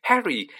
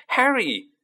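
First: High calling yell; yelled name. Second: Higher, louder repeat of the call; yelled name again. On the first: Friends spotting Harry across Diagon Alley, calling out. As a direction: call out across the street. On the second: Friends spotting Harry across Diagon Alley, yelling louder. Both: A narrator's reading. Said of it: "someone yelled his name".

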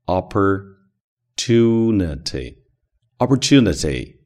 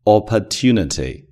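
First: Slow American Opportunity, curled r in the por; Opportunity with the American retroflex r, drawn out; American pronunciation. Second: Opportunity said clearly, stress on tu, no r-colouring; Opportunity in a crisp non-rhotic reading; model pronunciation. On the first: Teacher offering the American rhotic Opportunity, slow American. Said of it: "当然也可以发美式发音，卷舌音". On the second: Teacher modelling Opportunity first, plain clear reading. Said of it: "它的发音opportunity". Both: Shown as a demonstration.

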